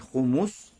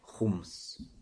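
First: A vowel follows the second consonant. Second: No vowel follows the second consonant. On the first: "можно говорить с даммой" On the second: "а можно говорить с сукуном"

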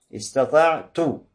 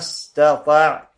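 First: The word ends with a u vowel. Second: The word ends with an a vowel. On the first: It means what I am able to do. "А возможно, что с дхаммой" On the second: It means what you are able to do. "то есть с фатхой на конце"

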